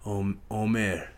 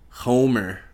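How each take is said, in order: First: The word begins without an H sound. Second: The word begins with an H sound.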